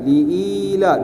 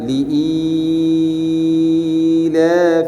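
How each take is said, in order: First: The long vowel is held for two beats. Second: The long vowel is held for six beats. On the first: "dua harakat" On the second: "Kalau enam"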